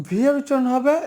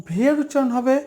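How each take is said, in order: Both takes have the same delivery.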